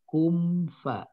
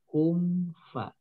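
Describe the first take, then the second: Both takes have the same delivery.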